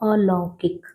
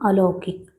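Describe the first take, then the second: First: The second vowel is an 'au' sound. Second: The second vowel is a plain 'o' sound. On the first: The speaker calls it right. "जब सही बोलेंगे तो सही लिखेंगे" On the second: The speaker calls it wrong. "अलौकिक नहीं है"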